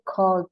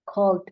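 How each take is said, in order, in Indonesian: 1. Akhirannya hanya bunyi d. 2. Akhirannya hanya bunyi d.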